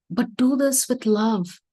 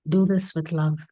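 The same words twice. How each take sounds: First: Drawing the lesson out for the listeners; slow emphasis. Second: Said in the usual way. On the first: Shown as a demonstration. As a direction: lean on "do" and let it land. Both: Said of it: "repeats the key line for emphasis".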